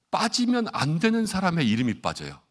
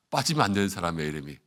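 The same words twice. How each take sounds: First: "빠지면" hit high, voice falling to the end; emphatic punchline. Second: "빠지면" said low, no punch, sinking to the end; subdued repeat. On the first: Preacher tells congregation whose name gets left out, emphatic. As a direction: punch out "빠지면" high, then let it fall. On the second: Preacher repeats the mishap to the congregation, subdued. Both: Real, not acted.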